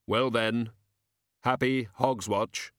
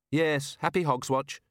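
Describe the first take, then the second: First: Slow, grave happy Hogswatch; a hint of Death; Death's farewell. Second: Higher, lighter happy Hogswatch; lightly voiced Susan; Susan replies. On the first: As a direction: Death speaking slowly and solemnly. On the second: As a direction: granddaughter answering a little higher. Susan answers.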